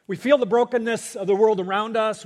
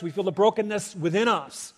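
First: First line of the pair pushed louder, leaning on feel; louder preaching emphasis. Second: Said in the usual way. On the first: Real, not acted. Preacher to congregation, raising the first lament line louder. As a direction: preach it out with a swell.

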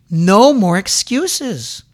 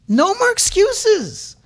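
First: Louder, slow and firm "No more excuses"; firm demand. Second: "No more excuses" cried out much higher and slow; high shout. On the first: Preacher demands the congregation stop excusing themselves, firm and slow. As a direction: lay down "No more excuses" slowly and firmly. Preacher repeats phrase higher second time. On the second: Preacher cries out to the congregation, a high slow shout. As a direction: cry "No more excuses" at the top of the voice. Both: Real, not acted.

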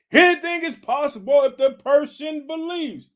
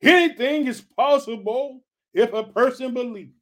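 First: Jesus proclaiming, higher. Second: Jesus proclaiming. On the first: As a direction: pitch lifted high and loud on "Anything is possible". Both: Retold or imitated. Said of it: "Jesus asks".

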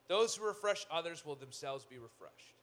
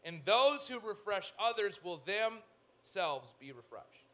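First: Said in the usual way. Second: Slow scripture reading. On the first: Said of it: "repeat of the verse". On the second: Shown as a demonstration. Preacher reads the proverb slowly to his congregation. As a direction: lean into every word of the verse. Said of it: "The generous will prosper".

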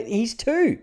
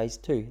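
First: "He's two." hoog en nadrukkelijk; exasperated repeat. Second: Said in the usual way. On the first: Retold or imitated. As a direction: say He's two as if it's obvious. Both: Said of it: "I go".

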